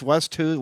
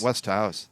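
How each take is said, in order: First: The second part sounds like 'who'. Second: The second part sounds like 'house'. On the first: The speaker calls it wrong. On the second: The speaker calls it right.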